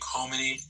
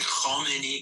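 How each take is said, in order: First: The name is said with an American pronunciation. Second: The name is said with a Persian-style pronunciation. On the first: The speaker sounds like an ordinary American. The speaker calls it right. "can you just say it like a normal American?" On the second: The speaker is trying to sound like a Persian speaker. The speaker calls it wrong. "he's trying to sound like like like he speaks Persian"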